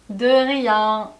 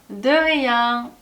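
No difference in how they are said.

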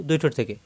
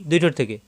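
No difference in how they are said.

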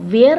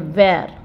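First: The y-like glide in the middle is strong. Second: The y-like glide in the middle is weak. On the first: The speaker calls it wrong. "हम वेयर नहीं बोलेंगे" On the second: The speaker calls it right. "य को हम कम थोड़ा sound बोलेंगे"

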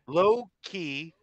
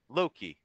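First: It sounds like two separate words, low key. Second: It sounds like one joined word, Loki. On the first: The speaker calls it wrong. "you keep calling it low key" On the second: The speaker calls it right. "No space? it's just Loki"

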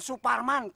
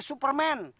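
First: Superman is pronounced with Indonesian sounds. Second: Superman is pronounced with English sounds. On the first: The speaker calls it wrong. "Bukan Superman" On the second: The speaker calls it right. "Kayak film yang di Amerika tuh"

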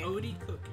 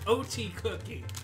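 First: The middle consonant is a soft D sound. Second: The middle consonant is a clear T sound. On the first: "you pronounced it O-D"

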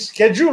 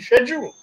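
First: It is pronounced the American way. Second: It is pronounced the British way. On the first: This is the newer usage now common in India. "I see Indians saying schedule all the time" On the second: This is the older usage that used to be taught. "which was the way the English was taught to us"

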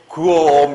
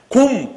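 First: The sounds are pulled apart one by one. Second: The word comes out in one single burst. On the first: The speaker calls it wrong. "이렇게 발음합니까?" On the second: The speaker calls it right. "한 방에 하잖아"

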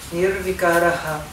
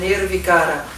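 First: The word ends with an added breathy 'ha' echo. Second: The word ends on a plain vowel without echo. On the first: The speaker calls it right. "esse ponto embaixo do H significa Nirvikaraha" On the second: The speaker calls it wrong. "Não é Nirvikara"

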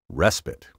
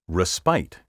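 First: The stress is on the first syllable. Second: The stress is on the second syllable. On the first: The speaker calls it right. "stress this word on the first syllable" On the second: The speaker calls it wrong. "Respite is often mispronounced respite"

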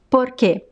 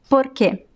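First: The R is a quick tongue flap. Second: The same.

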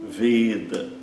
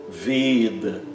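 Both takes have the same delivery.

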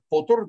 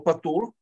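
First: The first vowel sounds like 'o'. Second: The first vowel sounds like 'a'. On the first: "которое иногда произносится как потур" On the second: "Есть слово патур"

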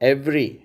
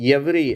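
First: The word starts directly with the vowel. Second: A y glide is added before the vowel. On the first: The speaker calls it right. "எவ்ரி என்பது சரி" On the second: The speaker calls it wrong. "அதை எவ்ரி அப்படிங்கிறாங்க, அது தவறு"

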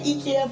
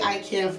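First: IKEA is pronounced the Norwegian way. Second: IKEA is pronounced the local English way. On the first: "We say IKEA from Norway" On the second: "you guys say IKEA from here"

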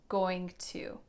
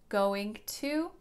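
Both takes have the same delivery.

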